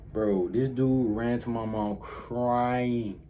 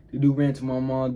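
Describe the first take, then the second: First: Drawn out, slow, unhurried telling; slow retelling. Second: Louder, punched restatement; emphatic retelling. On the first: Telling his audience how the friend ran to mom, slow and drawn out. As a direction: stretch the line out slowly, setting it up. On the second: Retelling to viewers how the friend snitched, louder and emphatic. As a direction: hit it harder the second time, outraged. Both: Retold or imitated.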